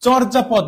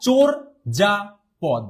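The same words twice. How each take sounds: First: চর্যাপদ run together with open "ɔ", "chɔr-japod"; wrong open-vowel pronunciation. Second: চোর যা পদ syllable by syllable, "chor... ja... pod"; correct closed O pronunciation. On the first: Teacher showing the form to avoid, চর্যাপদ as "chɔrjapod". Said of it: "চর্যাপদ না". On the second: Teacher correcting the word, চোর যা পদ in separated syllables. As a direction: break চোর যা পদ into three, rounded "o" in চোর. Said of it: "এটা হচ্ছে". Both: Shown as a demonstration.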